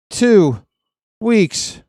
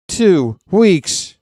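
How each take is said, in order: First: Hammed-up broken catchphrase; drawn-out Total Recall quote. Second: High, loud movie line; hammed-up Total Recall impression; Total Recall quote. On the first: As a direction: split into two high, loud beats. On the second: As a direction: belt out the catchphrase. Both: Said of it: "any Total Recall fans out there?".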